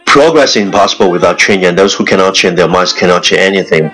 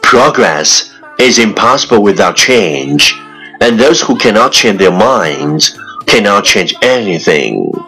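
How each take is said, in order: First: It is said very fast in one breath. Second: It is said at a normal speed.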